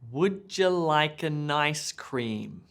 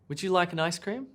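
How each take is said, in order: First: It is said slowly with words more apart. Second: It is said fast with words run together. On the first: "Let me slow it down" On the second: "the sentence is going to be fast and it's going to be all connected and mushed up"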